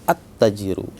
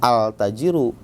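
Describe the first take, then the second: First: The l merges into a doubled t. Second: The l of the article is pronounced. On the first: The speaker calls it right. "tapi harus at tajiru" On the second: The speaker calls it wrong. "jangan al tajiru"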